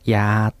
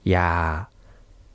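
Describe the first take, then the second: First: The word is said on a level mid tone. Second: The word is said on a low tone. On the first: It means medicine. "平らにやーというと薬ですね" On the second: It means don't. "これを低い声調でやーというふうに言うと"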